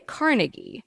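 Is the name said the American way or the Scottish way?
American. The name is said the American way. "U S we say Carnegie"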